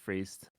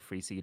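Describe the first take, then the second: First: The name is said as one syllable. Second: The name is said as two syllables. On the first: The speaker calls it right. "one syllable rhymes with beast" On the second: The speaker calls it wrong. "people think it's like free seed"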